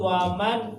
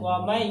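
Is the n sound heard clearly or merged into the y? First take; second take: clear n; merged. First: The n sound is pronounced clearly. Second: The n merges into a doubled, nasal y.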